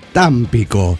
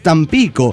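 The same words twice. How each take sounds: First: The stress is on the first syllable. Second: The stress is on the second syllable. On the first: The speaker calls it wrong. "es cuando el pirata dice Támpico" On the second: The speaker calls it right. "no lleva tilde, por lo tanto se acentúa en la I"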